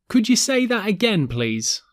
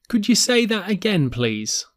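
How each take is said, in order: The two takes are said the same way.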